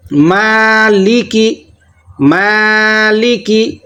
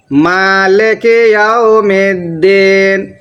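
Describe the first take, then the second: First: مالکی with a clear i under ل, slow; slow drawn مالکی; correct kasra. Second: مالک with a flat e sound, slow; mispronounced مالک as malek; wrong recitation. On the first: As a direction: let the ل vowel dip down in مالکی. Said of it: "زیر کی آواز نیچے کو جاتی ہے". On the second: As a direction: show the wrong مالک یوم الدین. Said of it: "یہ بالکل سراسر غلط ہے". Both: Shown as a demonstration.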